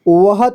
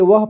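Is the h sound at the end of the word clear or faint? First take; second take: clear; faint. First: The h sound at the end is clearly pronounced. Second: The h sound at the end is barely pronounced. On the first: The speaker calls it wrong. "इसे वह तो नहीं पढ़ेंगे" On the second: The speaker calls it right. "इसे वह पढ़ेंगे ... ह का पूरी तरह से उच्चारण नहीं हो रहा है"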